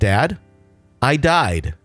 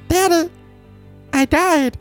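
First: It is said in the speaker's normal adult voice. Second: It is said in an imitated small child's voice.

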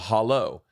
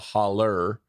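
First: The word ends with an 'oh' sound. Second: The word ends with an 'er' sound. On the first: This is the standard way of saying it. "instead of a hollow" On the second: This is the rural mountain way of saying it. "they're rednecks, so they call it a holler"

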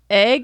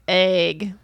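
First: The vowel sounds like a short 'eh'. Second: The vowel sounds like a long 'ay'. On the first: "E H G" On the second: "A Y G"

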